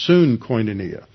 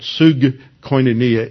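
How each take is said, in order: First: The first syllable ends with an n sound. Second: The first syllable ends with a g sound. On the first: The speaker calls it right. "it's soon koinonia" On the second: The speaker calls it wrong. "it's not sug koinonia"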